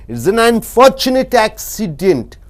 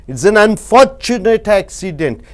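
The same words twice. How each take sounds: Both takes have the same delivery.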